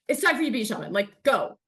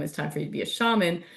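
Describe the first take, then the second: First: It is said in a cross, impatient tone. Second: It is said in a calm, neutral tone.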